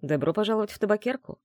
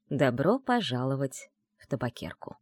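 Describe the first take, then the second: First: Lightly smiling greeting from a host; smiling welcome. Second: Said in the usual way. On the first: Acted. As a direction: welcome the guest with a smile. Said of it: "с улыбкой ответил".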